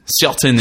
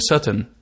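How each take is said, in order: First: The word is said with a French accent. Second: The word is said with an Israeli accent. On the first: The speaker calls it wrong. "Certain is like French. That's very, very French" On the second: The speaker calls it right. "I have to say, are you certain?"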